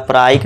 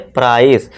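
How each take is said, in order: First: The word ends with a k sound. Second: The word ends with a plain s sound. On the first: The speaker calls it wrong. "इसे हम प्राइच या प्राइसे या प्राइक नहीं पढ़ेंगे" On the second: The speaker calls it right. "अब हम normal सा वाला साउंड देंगे"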